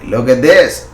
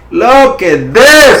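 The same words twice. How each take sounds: First: Said in the usual way. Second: Slow, drawn-out and louder, pitched way up; thrilled, stretched-out look at this; excited. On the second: Real, not acted. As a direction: savour it like a win you called. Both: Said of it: "I get so excited".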